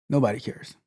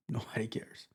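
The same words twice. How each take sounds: First: Said in the usual way. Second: Laughing it off. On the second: Real, not acted. Laughs, then dismisses.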